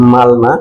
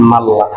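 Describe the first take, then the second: First: "মালনা" with l and n both said clearly; বানান মতো "মালনা" বলা; written form. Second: "মাল্লা" with n taken into a doubled l; ন মিলিয়ে দ্বিত্ব ল দিয়ে "মাল্লা"; merged double l. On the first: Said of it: "এটার উচ্চারণ হওয়ার কথা হচ্ছে". ("মালনা" ল আর ন আলাদা রেখে উচ্চারণ) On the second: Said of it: "এটাও হবে". ("মাল্লা" নূন মিলিয়ে দ্বিত্ব লাম উচ্চারণ) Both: Shown as a demonstration.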